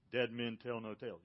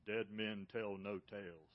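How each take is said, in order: First: Said in the usual way. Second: Slow, low, ominous delivery of Dead men tell no tales; ride pirate line. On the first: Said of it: "Y'all seen that?". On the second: Retold or imitated. Quoting the Disney ride's pirate warning, slow and low. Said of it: "what do they say?".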